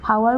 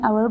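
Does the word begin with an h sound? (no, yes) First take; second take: yes; no. First: The word starts with an audible h sound. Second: The word starts with a vowel, no h. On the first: The speaker calls it wrong. "আমি যিহেতু এইটো হাৱাৰ বুলি কোৱা নাই" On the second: The speaker calls it right. "আমি আৱাৰ বুলি কৈছোঁ"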